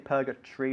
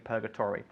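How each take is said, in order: First: The ending is squeezed into a short 'tree' sound. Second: The ending keeps a full 'tory' syllable. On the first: "In England, we say purgatory" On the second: "in the States, they would say purgatory"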